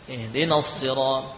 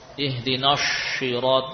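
First: The consonant is a heavy, emphatic 's' sound. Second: The consonant sounds like a 'sh' sound. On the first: The speaker calls it right. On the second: The speaker calls it wrong.

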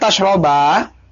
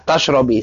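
First: The word ends with an a vowel. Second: The word ends with an i vowel. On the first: "Sekarang yang di apa di fathah" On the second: "tadi yang dia apa di kasrah ya"

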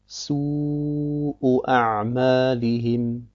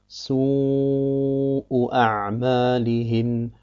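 The two takes are said the same way.

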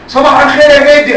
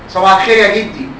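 First: The greeting is said very loudly. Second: The greeting is said more loudly. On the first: "[name] علي صوتك ليه؟" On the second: "علي صوتك"

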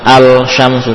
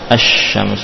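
First: The L is pronounced clearly before the sh. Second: The L merges into a doubled sh sound. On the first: The speaker calls it wrong. "bukan al-syamsu" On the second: The speaker calls it right. "harus diidghamkan ke huruf berikutnya"

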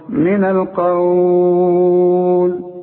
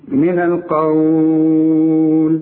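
First: The final vowel is held very long. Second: The final vowel is held moderately long. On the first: "ستة" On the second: "أربعة"

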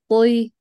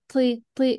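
First: The t sound is firm, deep and unaspirated. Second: The t sound is released with a breathy puff. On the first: The speaker calls it right. "امسكي الطاء من الأقصى،يعني من المخر،يعني من أقصى اللسان،من منطقة التفخيم" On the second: The speaker calls it wrong. "لما تبدأ بنطقها من الأمام حتيجي معكي مهموسة"

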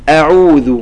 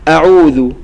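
Both takes have the same delivery.

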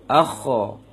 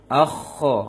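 The two takes are said the same way.

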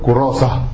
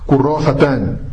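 First: The word ends without the '-tan' ending. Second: The word ends with the full '-tan' ending. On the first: The speaker stops at this word. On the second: The sentence continues without a stop.

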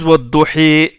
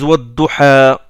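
First: The final vowel is raised toward i. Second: The final vowel is an open a. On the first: This is the pronunciation of other tribes. "D'autres tribus ils disent" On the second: This is the Quraysh pronunciation. "Les Quraysh ne font pas l'inclinaison"

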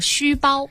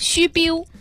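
First: It is spoken with a standard Cantonese pronunciation. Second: It is spoken with a Guangxi Baihua pronunciation. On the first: "粤语叫虚包" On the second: "白话是说虚标"

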